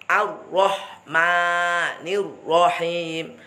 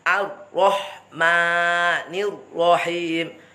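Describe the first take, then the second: The two takes are said the same way.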